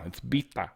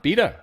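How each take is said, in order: First: The name is said with a Persian pronunciation. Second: The name is said with an American pronunciation. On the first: The speaker calls it right. "She insisted you pronounce it Bita" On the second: The speaker calls it wrong. "that's not how you say my name"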